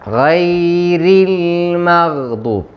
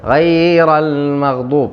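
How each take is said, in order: First: The r is thin and followed by an i vowel. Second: The r is thick and followed by an a vowel. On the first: The speaker calls it right. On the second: The speaker calls it wrong.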